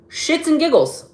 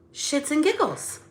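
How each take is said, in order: First: Higher and louder, biting; angry shout. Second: Higher, lilting and easygoing; airy and playful delivery; light sing-song. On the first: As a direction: bark it out like you're fed up. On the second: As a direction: say it breezily, no edge. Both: Shown as a demonstration. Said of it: "it's the volume or the inflection".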